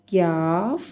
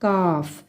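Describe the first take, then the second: First: Mock wrong कॉफ said क्याफ. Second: काफ said cleanly as kaaf, no y-glide; teacher's correct model काफ. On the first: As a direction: demo of the wrong क्याफ, with a y-glide after the k. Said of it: "इसको क्याफ नहीं पढ़ना". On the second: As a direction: say काफ plainly, k straight into the long a. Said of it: "क्या पढ़ना है?". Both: Shown as a demonstration.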